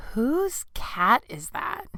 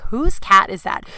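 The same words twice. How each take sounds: First: Slow, softer, drawn-out disbelief; appalled question. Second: Drawn-out but toned-down mimicry; amused quote-back. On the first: Retold or imitated. Neighbor asks about the wailing cat, appalled. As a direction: stretch it out, rising at the end. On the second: Teasing neighbor about her reaction, amused.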